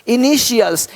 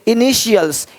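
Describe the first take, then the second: First: The middle consonant is an 'sh' sound. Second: The middle consonant is an 'sh' sound.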